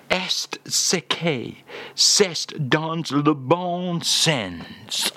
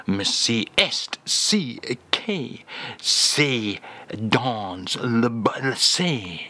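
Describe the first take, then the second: First: "Est ce que c'est dans le bon sens" said slowly and fully through to the end; the phrase spelled out slow and complete; careful French phrase. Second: "c'est dans le ba-" stumbles to a halt halfway through the French; a slow, broken attempt at the French phrase; fumbled French phrase. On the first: Acted. [name] getting the phrase right at the second try, slow and careful. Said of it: "That's the one". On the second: [name] fumbling the French phrase when asked for today's phrase. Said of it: "Ooh, almost got that right".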